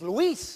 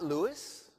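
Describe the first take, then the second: First: The name is said with Spanish vowels. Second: The name is said like English Louis. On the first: The speaker calls it right. "Luis is Luis" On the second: The speaker calls it wrong. "not Louis"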